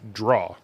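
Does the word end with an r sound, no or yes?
no. The word ends without any r sound.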